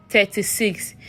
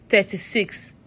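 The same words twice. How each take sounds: The two takes are said the same way.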